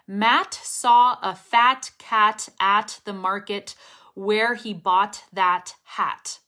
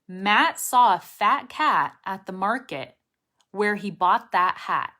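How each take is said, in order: First: Each final T is released with a puff. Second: Each final T is stopped without release. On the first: The speaker calls it wrong. "the sentence with the true T's" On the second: The speaker calls it right. "all of those are unreleased T's"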